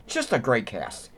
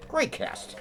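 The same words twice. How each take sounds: First: Said in the usual way. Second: Breathy whispered repeat, much higher and softer; soft whispered afterthought; whispered echo. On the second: Real, not acted. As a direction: whisper it to yourself in admiration. Repeats praise of the cast.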